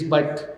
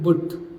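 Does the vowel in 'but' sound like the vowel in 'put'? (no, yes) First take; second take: no; yes. First: The vowel differs from the vowel of put. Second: The vowel matches the vowel of put. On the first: The speaker calls it right. "it is but" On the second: The speaker calls it wrong. "B U T is not but"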